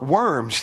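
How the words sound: The name is given an English pronunciation.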